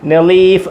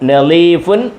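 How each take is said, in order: First: The word ends on a bare final consonant. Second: The word ends with a nasal 'un' ending.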